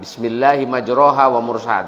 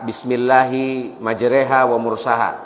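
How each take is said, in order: First: The second syllable has an open 'a/o' vowel. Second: The second syllable has a fronted 'e' vowel. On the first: This is what the ordinary rule would predict. "dibaca non majroha" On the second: This is how the reciters actually read it. "Kalau ada yang baca Bismillahi majreha"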